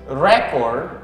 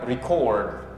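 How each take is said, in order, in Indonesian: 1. Penekanannya ada di suku kata pertama. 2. Penekanannya ada di suku kata kedua. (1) "itu rekaman ... kalau rekaman itu penekanan penekanannya di re" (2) "kalau merekam record ... yang kalau merekam penekanannya di core"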